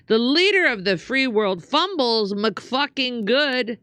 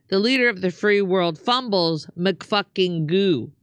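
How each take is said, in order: First: "McFucking good" with a final d; raised pitch, closing on "McFucking good"; McFucking ending in good. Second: "McFucking goo" without the final d; corrected to goo. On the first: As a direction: end "McFucking good" on the word good. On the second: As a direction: end "McFucking goo" on an open oo. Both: Acted. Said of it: "Damn it, I meant McFucking goo".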